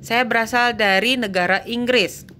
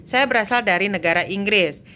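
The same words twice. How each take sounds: The two takes are said the same way.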